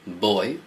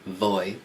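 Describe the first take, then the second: First: The word begins with a B sound. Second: The word begins with a V sound. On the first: The speaker calls it right. "the V in Spanish is pronounced like a B" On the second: The speaker calls it wrong. "So it's not voy"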